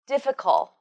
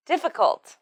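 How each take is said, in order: First: "difficult" with the final t left off; missing final t. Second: "Difficult" as one word with an audible final t; final t pronounced. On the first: Teacher shows the learner's mistake, "difficult" without its last t. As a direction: drop the t, ending "difficult" on the l. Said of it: "It's not". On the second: Teacher models the word for learners, "Difficult" with its final t sounded. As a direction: finish "Difficult" on a released t. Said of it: "t sound at the end". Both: Shown as a demonstration.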